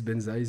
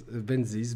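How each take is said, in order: First: Unsure try of Benzies, ending "-zize"; Benzies as "ben-ZIZE". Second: Unsure try of Benzies, ending "-zeez"; Benzies as "ben-ZEEZ". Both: Shown as a demonstration. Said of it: "je sais pas comment ça se prononce".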